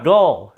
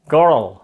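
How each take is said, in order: First: The word sounds like gull, without the R. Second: The word has a curled-tongue R sound. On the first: The speaker calls it wrong. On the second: The speaker calls it right.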